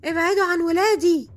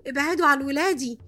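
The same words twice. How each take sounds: First: High, loud protective shout; yelling. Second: Raised-voice warning, first cry; retold yell, moderately loud and higher. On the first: Retold or imitated. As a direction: shout it higher and louder, warding them off. (صرخة عالية وحادة) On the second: (زعيق محكي بصوت مرفوع) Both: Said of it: "قعدت أزعق في الصالة كلها".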